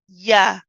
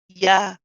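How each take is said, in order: Both takes have the same delivery.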